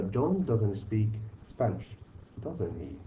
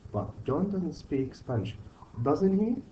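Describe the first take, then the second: First: Tag question falling at the end on "doesn't he?"; checking tone, "doesn't he?" falling. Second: "doesn't he?" swung up high at the end; rising tag. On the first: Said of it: "the question tag down". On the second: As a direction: ask "doesn't he?" with a sharp rise, really unsure. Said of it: "if your, uh, intonation". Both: Shown as a demonstration.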